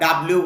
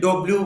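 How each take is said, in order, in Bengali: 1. এটা 'da' দিয়ে শুরু হয় আর 'bliu' দিয়ে শেষ হয়। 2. এটা 'do' দিয়ে শুরু হয় আর 'bliu' দিয়ে শেষ হয়। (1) "বা ডাব্লিউ বলেন, দুটোর কোনোটাই উচ্চারণ হবে না" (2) "অনেকে ডব্লিউ বলেন"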